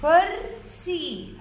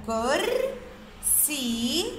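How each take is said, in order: First: كرسي joined up, still slow and high; blended word. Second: كرسي very slow, كر and سي far apart; syllable by syllable. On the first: Teacher putting كرسي together, slowly blended. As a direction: say كرسي as one careful word. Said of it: "إذا كرسي". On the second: Teacher splitting كرسي into boxes, syllable by syllable. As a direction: hold كر, pause, then a long سي. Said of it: "باخد معاه الحرف اللي سبقه". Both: Shown as a demonstration.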